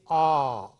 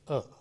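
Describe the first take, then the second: First: The vowel is said in its full form. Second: The vowel is reduced to a short weak sound. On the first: "The strong form is are" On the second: "the weak form is a"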